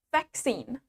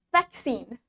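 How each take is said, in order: The two takes are said the same way.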